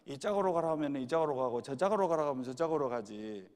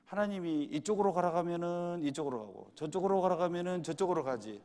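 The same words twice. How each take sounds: First: Imitated Jeolla grandmother, a little louder; playful retelling in Jeolla dialect. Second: A hint of a churchgoing mother's helpless reply, pitched up; lightly voiced elderly mother. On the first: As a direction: say it as a Jeolla granny would, in dialect. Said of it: "전라도 버전으로 하면요". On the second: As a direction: lightly imitate an older woman answering, in standard Korean. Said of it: "그 어머니가 대답을 이렇게 했어요".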